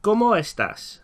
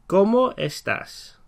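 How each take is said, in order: First: "¿Cómo estás?" with KO-mo stressed, high; Spanish model. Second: "¿Cómo estás?" at half speed, syllable by syllable; teacher repeating the phrase very slowly. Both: Shown as a demonstration. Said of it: "So we can ask".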